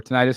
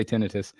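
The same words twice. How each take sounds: First: Tinnitus with a long "eye" in the stressed middle; tinnitus as tin-EYE-tus. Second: Tinnitus stressed on the first syllable, short i; tinnitus as TIN-ih-tus. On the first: Streamer offering viewers the other way to say it, tinnitus as tuh-NIGHT-us. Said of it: "however you guys say it". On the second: Streamer giving viewers his own way to say it, tinnitus as TIN-ih-tus. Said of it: "I say tinnitus". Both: Shown as a demonstration.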